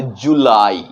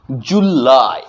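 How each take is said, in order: First: "जुलाई" the usual Hindi way; Hindi July. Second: "जुलाई" with the la vowel held a second or two; "जुलाई" stretched on the la before the i; long la in July. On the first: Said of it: "लेकिन English pronunciation करेंगे जुलाई". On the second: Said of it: "हमें आपका की मात्रा पे कुछ समय रुकना है". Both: Shown as a demonstration.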